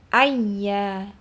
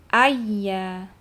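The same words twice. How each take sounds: Both takes have the same delivery.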